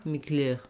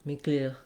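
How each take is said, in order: First: It is said with French vowels and R. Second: It is said with French vowels and R.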